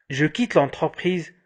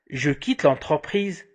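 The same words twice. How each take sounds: The two takes are said the same way.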